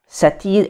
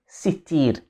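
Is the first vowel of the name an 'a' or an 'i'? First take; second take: a; i. First: The first vowel is an 'a' sound. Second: The first vowel is an 'i' sound.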